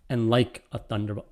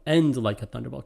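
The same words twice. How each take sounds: First: "like" weighted, "and" light; stress on like. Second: "and" stressed with a rise, then "like"; double stress. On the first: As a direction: lean on "like". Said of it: "different ways to do the final line". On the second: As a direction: hit "and" and "like" both. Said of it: "could be a double stress there". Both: Shown as a demonstration.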